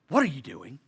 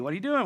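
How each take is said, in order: First: The question sounds suspicious and accusing. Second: The question sounds light and friendly. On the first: The reader thinks they are being checked up on. The speaker calls it wrong. "I always add inflection. Always. And it's never the right inflection" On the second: Someone is simply asking about the day. The speaker calls it right. "She's just checking on my day"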